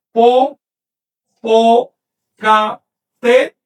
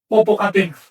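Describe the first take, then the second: First: Popocatépetl drawn out very slowly, syllable by syllable, louder. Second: Said in the usual way. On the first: Shown as a demonstration. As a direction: spell out Popocatépetl slowly for the class. (Popocatépetl pronunciado muy despacio, sílaba por sílaba, más fuerte) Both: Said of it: "Les voy a poner el caso de".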